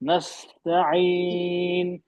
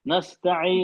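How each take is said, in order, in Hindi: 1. बीच की आवाज़ ज़्यादा देर तक खिंचती है। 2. बीच की आवाज़ बस थोड़ी देर के लिए बोली जाती है। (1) "हमें ज्यादा वक्त देना है" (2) "आपने कम वक्त दिया इसमें"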